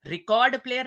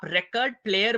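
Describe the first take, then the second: First: record player as ri-KORD player, second syllable strong; misplaced verb stress. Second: record player as RE-kard player, first syllable strong; noun stress. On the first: Teacher showing a mistaken record player, second-syllable stress. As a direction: put the weight on KORD in record, with a long O. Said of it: "record player नहीं होता है". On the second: Teacher giving the correct record player, first-syllable stress. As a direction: stress the RE of record, reduce the second vowel. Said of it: "या आप record player बोलेंगे". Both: Shown as a demonstration.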